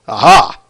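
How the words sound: It is said in a Scorpion voice.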